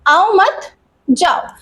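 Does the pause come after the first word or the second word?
second word. There is a pause after the second word. Don't come; go away. "आओ मत यानी comma लग गया मत के बाद"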